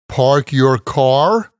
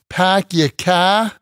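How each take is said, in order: First: It is said without a Boston accent. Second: It is said in a Boston accent.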